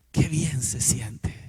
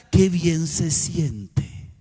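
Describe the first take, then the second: First: Slow hushed whisper, softer and lower; qué bien se siente, whispered slowly under the breath. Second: Very slow, drawn-out and dreamy; qué bien se siente, stretched slow and dreamy; savoring slowly. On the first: Repeats it softly. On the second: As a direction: let each word linger with relief. Savoring the feeling after forgiving. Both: Acted.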